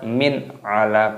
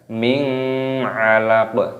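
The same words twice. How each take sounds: First: The n is pronounced clearly before the next word. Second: The n is blurred into the next word. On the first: The speaker calls it right. "Idhar artinya jelas" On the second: The speaker calls it wrong. "Jangan min 'alaq, tidak boleh, harus jelas"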